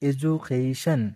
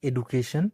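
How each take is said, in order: First: The second syllable starts with a 'j' sound. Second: The second syllable starts with a plain 'd' sound. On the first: The speaker calls it right. "এটা এডু হবে না, এজু" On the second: The speaker calls it wrong. "আমরা যেভাবে উচ্চারণ করি"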